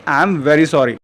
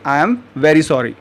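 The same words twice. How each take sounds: First: Said in the usual way. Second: Slow model phrase. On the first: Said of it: "अगर इसी को आप English में बोलना चाहें". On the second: Shown as a demonstration. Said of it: "तो English में आप कहेंगे".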